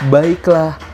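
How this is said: It is said at a medium pitch.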